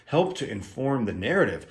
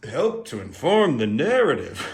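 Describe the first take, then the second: First: Said in the usual way. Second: Higher, swooping parody of own phrase; hammed-up, sing-song emphasis on "inform" and "narrative"; mock-dramatic echo. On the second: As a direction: repeat it grandly with big pitch swoops. Repeats own phrase in mock style.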